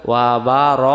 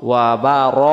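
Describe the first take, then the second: Both takes have the same delivery.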